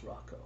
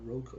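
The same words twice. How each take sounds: First: The first syllable sounds like 'rock'. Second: The first syllable does not sound like 'rock'. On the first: The speaker calls it right. "it's pronounced like R O C K O" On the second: The speaker calls it wrong. "it's not Rocco"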